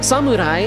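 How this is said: It is pronounced the Japanese way. "like you actually pronounce it like that"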